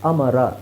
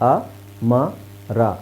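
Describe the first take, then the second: First: Faster, with the syllables run together. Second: Slow, with a gap between each syllable. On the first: The letters are joined into one word. "Gap ಕೊಡ್ತಾ ಇಲ್ಲ, ಸ್ವಲ್ಪ ಫಾಸ್ಟಾಗಿ ಹೇಳ್ತಾ ಇದ್ದೀವಿ" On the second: Each letter is read separately. "ನಿಧಾನಕ್ಕೆ ಹೇಳ್ತಾ ಇದ್ದೀವಿ, gap ಕೊಟ್ಟು ಹೇಳ್ತಾ ಇದ್ದೀವಿ"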